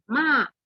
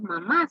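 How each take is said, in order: First: Ma, only the first syllable of mamá; clipped ma. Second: Said in the usual way. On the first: Shown as a demonstration. Teacher showing how families shorten mamá, casual ma. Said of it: "sino que le decimos ma". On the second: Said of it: "o no le decimos mamá".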